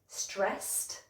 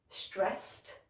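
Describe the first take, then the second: No difference in how they are said.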